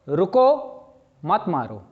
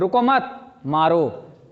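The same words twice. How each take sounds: First: There is a pause after रुको. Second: There is a pause after मत.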